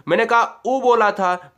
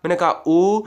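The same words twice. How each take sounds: First: उ said short and quick; a short, light उ. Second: उ held for double length; long ऊ. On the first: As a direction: clip उ to a brief sound. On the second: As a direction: stretch उ out twice as long. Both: Shown as a demonstration. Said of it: "दो गुना समय".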